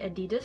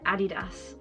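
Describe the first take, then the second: First: It is said the American way. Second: It is said the British way.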